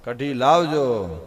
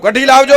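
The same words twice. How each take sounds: First: Slow, drawn-out "કઢી લાવજો" at normal pitch; guest's fourth slow request for kadhi; slow fourth ask. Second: High, loud call toward the kitchen. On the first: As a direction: stretch the words out, all the fight gone. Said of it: "પણ ચોથી વાર કીધું". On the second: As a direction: call out boldly for more. Guest calls again. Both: Retold or imitated.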